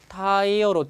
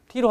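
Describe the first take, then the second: First: The first vowel sounds like 'eye'. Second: The first vowel sounds like 'ee'. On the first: The speaker calls it right. "타이어로 발음 잘하세요" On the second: The speaker calls it wrong. "T로가 아닙니다. T로 하면 아무도 못 알아듣습니다"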